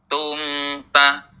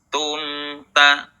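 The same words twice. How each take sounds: The two takes are said the same way.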